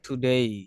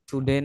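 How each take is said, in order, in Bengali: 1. শেষ স্বরধ্বনিটি e থেকে i-তে গড়িয়ে যায়। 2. শেষ স্বরধ্বনিটি একটি ছোট, সাধারণ e। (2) "টুডে না"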